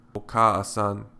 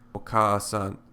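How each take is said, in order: Both takes have the same delivery.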